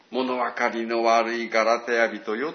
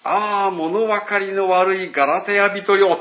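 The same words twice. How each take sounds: First: Slow, gentle fond rebuke; loving reproach. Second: Loud, slow lament to the Galatians; Paul's exasperated cry. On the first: Paul to the Galatians as to his children, tender reproach. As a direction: chide like a loving parent. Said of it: "親が子供に対して大きな愛を持って". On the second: Preacher voicing Paul rebuking the Galatians, loud and slow. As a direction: call out in loud, slow dismay. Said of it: "パウロはこう言うんです". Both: Retold or imitated.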